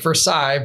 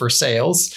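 First: The name has a French-style pronunciation. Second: The name has an American-style local pronunciation. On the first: This names the palace in France. "which is spelled exactly like Versailles" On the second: This names the city in Kentucky. "in Kentucky they pronounce it Versailles"

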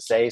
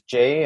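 First: The name starts with an s sound. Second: The name starts with a j sound. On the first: This is how other families say the name. "Others pronounce it Say" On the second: This is how some families say the name. "I have heard it pronounced as Jay"

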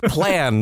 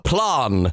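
First: The vowel is a flat 'a' sound. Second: The vowel is a broad 'ah' sound. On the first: It is the ordinary American pronunciation. The speaker calls it right. "it's just plan" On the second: It mimics a fake upper-class English accent. The speaker calls it wrong. "he says ah for every single vowel change. So he's like"

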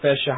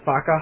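First: The first vowel sounds like 'eh'. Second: The first vowel sounds like 'uh'. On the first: The speaker calls it right. "the sentence we were learning was" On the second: The speaker calls it wrong. "he kept mispronouncing the A, so it sounded like he was saying"

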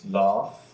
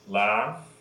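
First: The vowel is a broad open 'ah'. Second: The vowel is a flat front 'a'. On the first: This is the British way of saying it. "They, of course, have" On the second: This is the American way of saying it. "where we have that flat A"

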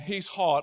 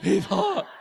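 First: It is said in a plain, matter-of-fact tone. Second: It is said in a suggestive, lustful tone.

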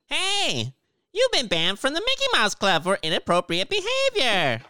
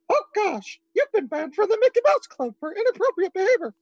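First: It is said in a SpongeBob voice. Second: It is said in a Mickey Mouse voice.

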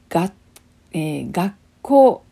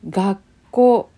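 First: A full 'tsu' syllable is said before the k. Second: The k sound is held as a doubled consonant. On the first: "普通のつを使うと、これがねがつこうですね" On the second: "単語にもたくさんありますよ"

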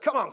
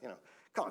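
First: It is said at full, open volume. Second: It is said quietly, under the breath. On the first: The speaker calls it wrong. "I'm not like that" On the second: The speaker calls it right. "just under my breath"

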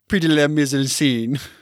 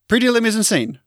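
First: It is said with a French accent. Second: It is said with an Australian accent. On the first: "that's heaps better" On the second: "I just say it in the Australian accent"

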